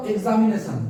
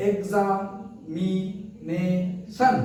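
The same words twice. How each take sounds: First: Said in the usual way. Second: "examination" slowly as এক্সা, মি, নে, শন; four separated beats on "examination"; split into syllables. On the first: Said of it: "উচ্চারণ করো". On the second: Shown as a demonstration. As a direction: pause after each syllable of "examination". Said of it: "কবার চাপ দিল".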